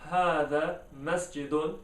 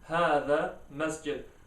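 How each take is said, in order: First: The last word ends with a vowel and n. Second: The last word ends on a bare consonant. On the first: "instead of" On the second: "it will become"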